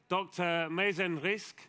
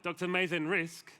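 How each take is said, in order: First: The name is said with a Spanish-sounding accent. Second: The name is said with a plain, unaccented delivery. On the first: The speaker calls it wrong. "I said that in a very Spanish way" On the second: The speaker calls it right. "there we go"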